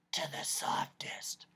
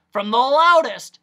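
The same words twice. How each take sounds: First: Slow, hushed whisper; barely voiced, drawn-out hush. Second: High, booming emphasis on loudest; big, loud doctor voice; loud shout. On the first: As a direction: drop to a soft whisper. Voice acts out the word softest. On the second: Acted. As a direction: shout it to illustrate loudness. Voice acts out the word loudest.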